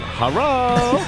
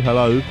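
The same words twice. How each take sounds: First: It is said in an imitated Chinese accent. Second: It is said in the speaker's ordinary accent.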